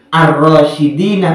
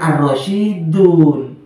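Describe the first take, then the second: First: The word ends with the sounds -ina. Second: The word ends with the sounds -un. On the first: The word agrees with a genitive noun. The speaker calls it right. "Jadi ar-rasyidina bukan ar-rasyidun" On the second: The word is in the nominative case. The speaker calls it wrong. "bukan ar-rasyidun"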